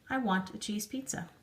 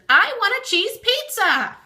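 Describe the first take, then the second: First: It is said as a calm statement. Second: It is said as an excited exclamation.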